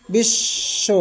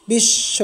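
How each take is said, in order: First: বিশ্ব whispered again as bish-sho; soft repeat. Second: বিশ্ব said as bish-sho, doubled sh; বিশ্ব modelled with a long double sh; clear model word. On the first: Teacher repeats বিশ্ব for students in a whisper. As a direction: breathe বিশ্ব softly with the doubled sh. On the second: Teacher models বিশ্ব for students, doubled sh. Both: Shown as a demonstration. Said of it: "তালব্য স্বর দুইবার উচ্চারিত হবে".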